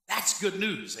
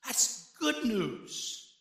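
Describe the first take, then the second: First: Said in the usual way. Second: "good" drawn out and leaned on; a deliberate slowed echo of "That's good news"; slow emphatic repeat. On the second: Shown as a demonstration. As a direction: savor "good" very slowly.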